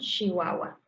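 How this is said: It has a northern Mexican pronunciation. "en el norte podemos incluso encontrarnos con Chihuahua"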